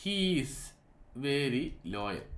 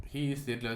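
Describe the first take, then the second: First: Drawn out, word by word, as if writing it; slow dictation. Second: Said in the usual way. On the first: Shown as a demonstration. Teacher writing an example sentence on the board, slowly. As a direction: say it slowly while chalking it up. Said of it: "ഞാൻ അവിടെ ഒരു sentence എഴുതുവാണ്". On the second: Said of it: "sentences ആണ്".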